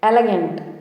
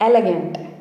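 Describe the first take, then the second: No difference in how they are said.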